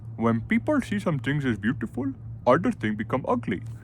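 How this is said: It is read in an Indian accent. "I don't know Indian"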